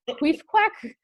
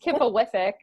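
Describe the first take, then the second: First: The name is said as two syllables. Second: The name is said as four syllables. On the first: This is the speaker's own old reading of the name. "I have actually used to pronounce it Queefquack" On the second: This is another person's preferred reading of the name. "Chris is pretty sure it's Kipawithic"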